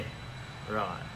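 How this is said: It sounds sarcastic and disbelieving.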